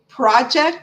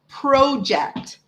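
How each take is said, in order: First: The first syllable sounds like 'prah'. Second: The first syllable sounds like 'pro'. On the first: "when you say project in the States" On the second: "we say project"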